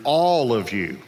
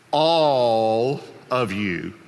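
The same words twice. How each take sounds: First: Said in the usual way. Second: "all" stretched very long, then a pause; drawn-out emphasis. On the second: Retold or imitated. Jesus warns every disciple, "all" drawn out emphatically. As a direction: hold "all" slowly before "of you".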